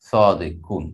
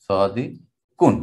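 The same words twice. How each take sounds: First: Said in the usual way. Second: Slow drawn-out word. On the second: Shown as a demonstration.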